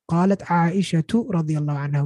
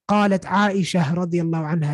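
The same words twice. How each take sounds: First: Aisha ends with a t sound before the next word. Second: Aisha ends without a t sound before the next word. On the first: The speaker calls it right. "We say ta at the end" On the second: The speaker calls it wrong. "We don't say in Arabic"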